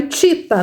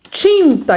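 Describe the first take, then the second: First: TITA with a pure oral I, no N sound; TITA, first vowel left un-nasalised; missing nasal. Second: TINTA with a clear nasal IN, pitched higher; nasal sounded. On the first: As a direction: say TITA as the child misspelt it, without nasal. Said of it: "criança que ainda não percebe". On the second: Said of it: "esse aqui já percebeu". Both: Shown as a demonstration.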